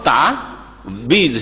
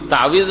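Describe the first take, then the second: First: The middle consonant is a b sound. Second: The middle consonant is a w sound. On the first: The speaker calls it wrong. "ওয়াওকে ওয়েকে বে করলো, আর আইনের টানকে অফ করে দিল" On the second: The speaker calls it right. "ওয়াজের ওয়ে হয়"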